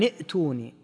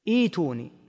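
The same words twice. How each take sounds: First: A glottal stop follows the opening vowel. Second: A 'y' sound follows the opening vowel. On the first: The word is read joined to the words before it. "فلا يظهر إلا همزة واحدة لأن الأولى همزة وصل" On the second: Reading starts fresh from this word after a stop. "إذا وقفت وابتدأت فإنك تقلب الهمزة الثانية إلى ياء"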